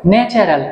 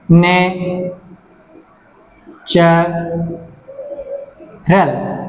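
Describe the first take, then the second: First: Said in the usual way. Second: natural held as ন্যা, চা, রাল with long pauses; very slow natural, each syllable alone; syllable split. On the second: Shown as a demonstration. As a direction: stretch natural into three far-apart beats. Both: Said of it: "তিনটা syllable আছে".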